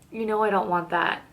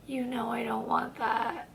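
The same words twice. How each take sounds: First: Said in the usual way. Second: Very soft, slow reply; barely voiced, drawn-out turn-down; hushed refusal. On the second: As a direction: let it out quietly and slowly. Retold turning down of a kiss.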